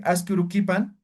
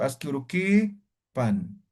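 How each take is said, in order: First: Said in the usual way. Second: "urukipan" with the "ki" drawn out, slowly; long vowel in KI. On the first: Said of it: "en vez de decir". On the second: Shown as a demonstration. Teacher showing diéresis, slow "urukipan" with long "ki". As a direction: hold the i of "urukipan", then a falling "pan". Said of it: "Aquí alargo la vocal".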